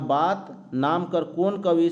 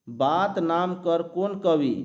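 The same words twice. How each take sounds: First: Said in the usual way. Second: Reading the question aloud slowly; teacher slowly reads out the quiz question. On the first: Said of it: "देखिए यहाँ". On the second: Shown as a demonstration. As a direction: read the exam question slowly, word by word. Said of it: "देखिए यहाँ बात नाम कर कौन कवि".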